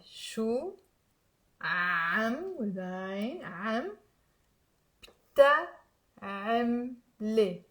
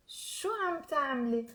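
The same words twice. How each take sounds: First: Slow, careful syllables with long pauses; slow demo. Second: Connected, softer question demo; fluent teaching example; said fast. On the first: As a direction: stretch each sound for learners. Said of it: "I will say it slowly". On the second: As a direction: model the question in one run. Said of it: "I've said it fast". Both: Shown as a demonstration.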